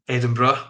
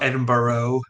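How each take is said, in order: First: It is said with the local Scottish pronunciation. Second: It is said with an American-style pronunciation. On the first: The speaker calls it right. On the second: The speaker calls it wrong. "not Edinburgh. I hope other you know Americans are watching"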